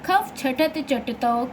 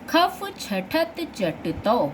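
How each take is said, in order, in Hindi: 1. यह तेज़ी से पढ़ा जाता है, सूत्र आपस में मिल जाते हैं। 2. यह धीरे-धीरे पढ़ा जाता है, एक-एक सूत्र करके।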